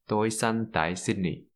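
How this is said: Sydney is said with an English accent. "we tend to pronounce it without a Viet accent"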